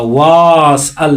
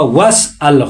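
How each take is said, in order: First: The first vowel is long, with a long a. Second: The first vowel is short, with no long a. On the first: The speaker calls it wrong. "वास अल नहीं पढ़ेंगे" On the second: The speaker calls it right. "वस अल होगा, अलिफ को अलिफ में तब्दील नहीं होगा"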